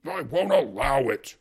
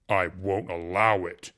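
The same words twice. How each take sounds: First: Much louder, slow furious warning; angry repeat. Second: Loud, slow and hollow. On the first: Husband banging the table at the uncle, furious and loud. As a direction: pound each word like the fist. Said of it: "repeated Fyodor, banging on the table". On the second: Jealous husband warning the uncle off, loud and hollow. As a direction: slam the words down like a fist. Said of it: "said in a hollow voice". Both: A narrator's reading.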